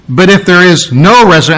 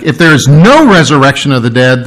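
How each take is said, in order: First: Said in the usual way. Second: Preacher pressing the emphatic "no" on the congregation. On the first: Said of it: "is very emphatic". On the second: Shown as a demonstration. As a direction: lean hard into the word "no". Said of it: "that word no is very emphatic".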